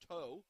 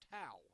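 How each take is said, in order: First: The name sounds like the word 'tow'. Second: The name does not sound like 'tow'. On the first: The speaker calls it wrong. "I made the mistake, unfortunately, referring to her as Toe, as in tow truck" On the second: The speaker calls it right. "but no, it's Tao"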